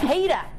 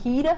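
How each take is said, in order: First: It is said with an Australian accent. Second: It is said without an Australian accent. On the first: The speaker calls it right. "I can say that word slightly, a little bit with an Australian accent" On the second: The speaker calls it wrong. "Oh, that was wrong"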